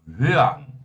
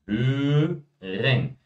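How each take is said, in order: First: The word is said in a shortened, casual form. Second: The first vowel is said with rounded lips, carefully. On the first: "a gente só vai ouvir isso aqui, ó" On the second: "Fala o E, faz o bicão"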